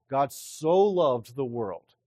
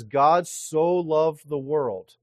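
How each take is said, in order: First: God so loved the world, slow, with so stretched and stressed. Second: God so loved the world, slow and loud, God punched; emphatic. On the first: Preacher showing congregation the emphasis, stressing so. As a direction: linger on the word so. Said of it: "That's the emphasis here". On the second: Preacher stressing to congregation, slow and loud. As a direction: lean hard on God, drawn out. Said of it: "that's showing us that this is an emphatic love". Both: Shown as a demonstration.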